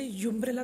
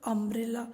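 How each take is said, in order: First: The word begins with a 'yoo' sound. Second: The word begins with an 'uh' sound. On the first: The speaker calls it wrong. "हम इसे यूम्ब्रेला तो नहीं बोलते" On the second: The speaker calls it right. "हम इसे क्या बोलते हैं"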